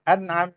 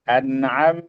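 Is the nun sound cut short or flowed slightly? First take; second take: cut short; flowed. First: The nun sound is cut off abruptly. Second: The nun sound flows on slightly. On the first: The speaker calls it wrong. "Jangan juga dibaca an'am" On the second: The speaker calls it right. "tapi dialirkan sedikit"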